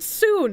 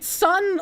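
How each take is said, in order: First: The vowel is a long 'oo' sound. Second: The vowel is a short 'uh' sound. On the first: The speaker calls it wrong. "I pronounce it soon" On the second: The speaker calls it right. "instead of pronouncing it sun like I should"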